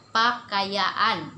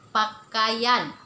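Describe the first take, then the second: First: "pakaiaan" with the last "aan" drawn out long. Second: "Pakaian" said crisply, middle syllable short. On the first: Teacher showing the second Dusun form, stretched pakaiaan. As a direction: stretch the final vowel of "pakaiaan". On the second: Teacher showing the first of two Dusun forms, short pakaian. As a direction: say "Pakaian" with a quick, even "a-ian". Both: Shown as a demonstration. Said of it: "ada yang cakap pakaian ataupun pakaiaan".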